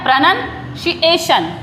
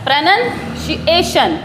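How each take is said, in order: No difference in how they are said.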